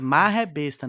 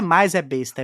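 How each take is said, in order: First: The first word has a strong r, run together. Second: The first word is said without any r sound. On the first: The speaker calls it right. "é marra é besta, né, tem o dois erres aí, é tudo junto" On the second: The speaker calls it wrong. "não é mais é besta"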